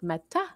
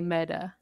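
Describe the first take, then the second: First: The middle consonant sounds like a crisp T. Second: The middle consonant sounds like a soft D. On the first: The speaker calls it wrong. "instead of like Meta" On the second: The speaker calls it right. "kind of like with the D"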